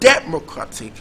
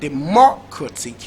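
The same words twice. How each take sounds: First: The stress is on the first syllable. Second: The stress is on the second syllable.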